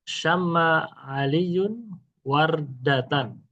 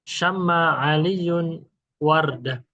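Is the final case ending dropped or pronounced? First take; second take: pronounced; dropped. First: The final vowel ending is fully pronounced. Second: The final vowel ending is dropped. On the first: This is the complete reading without stopping. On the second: This is the pausal reading at a stop.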